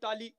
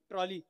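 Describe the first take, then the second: First: The word is clipped to taali, without the r. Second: The word is said fully, with the tr cluster. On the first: It is how people there actually say it. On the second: It is too proper for how people there talk.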